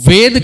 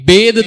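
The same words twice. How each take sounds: First: The word begins with a v sound. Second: The word begins with a b sound. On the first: The speaker calls it right. "शुद्ध होगा" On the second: The speaker calls it wrong. "वो अशुद्ध होगा"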